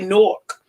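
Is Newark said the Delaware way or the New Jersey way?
New Jersey. Newark is said with a New Jersey pronunciation. "I'm from Jersey. We say Newark"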